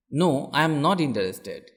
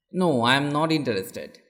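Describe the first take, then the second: No difference in how they are said.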